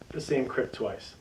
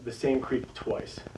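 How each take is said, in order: First: Creek is said with a short 'i' vowel. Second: Creek is said with a long 'ee' vowel. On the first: "or I pronounce it Crick" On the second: "this is called"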